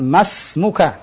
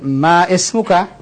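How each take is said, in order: First: The 'i' is silent; ma runs into smuka. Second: The 'i' is pronounced as a separate vowel. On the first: The speaker calls it right. "Bukan ma ismuka. Hadha khata" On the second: The speaker calls it wrong. "Bukan ma ismuka. Hadha khata"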